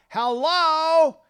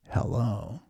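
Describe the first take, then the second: First: The greeting is said loudly. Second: The greeting is said quietly. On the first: "some people talk really loud on the phone" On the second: "some people talk really quietly. They go like this"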